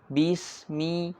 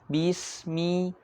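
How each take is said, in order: No difference in how they are said.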